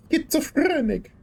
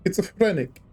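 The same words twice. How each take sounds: First: Very high voice, long rolled R; high, showy trill on "Schizophrenic"; Linda. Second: Milder take, somewhat higher voice; toned-down "Schizophrenic", short R; Linda. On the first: Channeling someone for fun, high trilled voice. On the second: Echoing the impression, a milder high voice. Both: Acted. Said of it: "just channeling Linda now".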